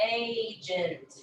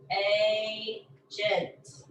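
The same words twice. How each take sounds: First: Said in the usual way. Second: "Agent" as a held A, a gap, then the rest; split syllables. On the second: Shown as a demonstration. Teacher isolating the first syllable, "Agent" split in two. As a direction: break "Agent" after the long A. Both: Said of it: "only part of that first syllable".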